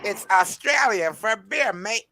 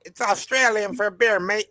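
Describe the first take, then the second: First: Slower, half-hearted Australian accent, pitched higher; a tired Australian accent, voice not quite up to it. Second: Mock Australian accent, pitched higher, like the old beer ad; a Crocodile Dundee-style Australian accent selling beer. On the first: Shown as a demonstration. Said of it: "can you do that Australian accent again for me". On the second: Quoting the Foster's beer ad to friends on stream in an Australian accent. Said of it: "do that Australian accent again".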